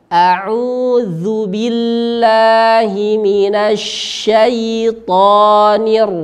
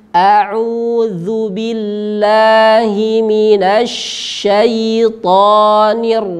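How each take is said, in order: Both takes have the same delivery.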